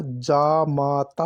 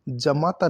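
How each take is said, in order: First: Slow जामाता with long first aa; correct pronunciation. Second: जमाता with short first a; wrong pronunciation. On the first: Teacher correcting the word, जामाता slowly with long aa. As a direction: stretch जामाता as "jaa-maa-taa". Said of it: "आ की मात्रा". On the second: Teacher showing the error, जमाता with short a. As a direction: say जमाता as "ja-maa-taa". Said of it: "नहीं होता". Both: Shown as a demonstration.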